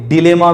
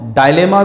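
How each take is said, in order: First: The first syllable sounds like 'dih'. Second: The first syllable sounds like 'die'. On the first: "आप इसे डिलेमा भी कह सकते हो" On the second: "आप इसको डायलेमा भी कह सकते हो"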